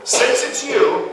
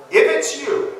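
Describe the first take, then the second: First: Since hit high and slow; stress on since. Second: Its stressed, high and falling. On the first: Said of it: "more like Peter saying". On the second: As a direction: if it's you, the its hit high then falling. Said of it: "that's not expressing doubt". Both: Shown as a demonstration.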